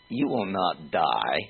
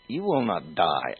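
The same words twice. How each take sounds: First: Said in the usual way. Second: "die" weighted, falling to a close; stress on die. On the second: Shown as a demonstration. Preacher quoting the serpent to his listeners, stress on "die". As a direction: lean on the word "die". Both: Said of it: "I emphasize die".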